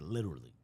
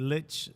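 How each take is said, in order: First: It is said in an American accent. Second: It is said in an English accent. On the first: "We say literally" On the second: "You got to read that with an English accent"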